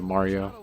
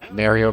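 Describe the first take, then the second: First: Mario is said with the usual non-Canadian vowel. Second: Mario is said with a Canadian-style vowel. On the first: This is the usual way to say it. "instead of Mario" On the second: This is how some Canadians say it. "I've heard a Canadian say Mario"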